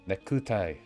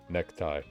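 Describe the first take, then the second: First: Each syllable is pronounced separately and fully. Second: The syllables run together with vowels nearly dropped. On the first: The speaker calls it wrong. "I'm the one trying to pronounce it like the syllables" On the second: The speaker calls it right. "the voice for like an actual Japanese person is just like necktie"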